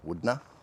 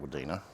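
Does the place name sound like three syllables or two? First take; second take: two; three. First: The name is said with two syllables. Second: The name is said with three syllables. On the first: This is how the place is actually called. The speaker calls it right. "apparently it's called Woodna" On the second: This is how the speaker would naturally say it. The speaker calls it wrong. "I would pronounce it Woodina"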